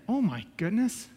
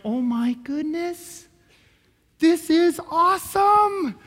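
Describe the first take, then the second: First: Quiet, slow, appalled aside; appalled disbelief. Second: Slow, stretched-out wonder, building high; acted awe that swells and climbs; awestruck amazement. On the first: Retold or imitated. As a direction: mutter it slowly in disbelief. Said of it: "that's the most ridiculous thing I ever heard". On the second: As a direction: draw it out, rising into amazement. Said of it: "you just have a new revelation of Jesus".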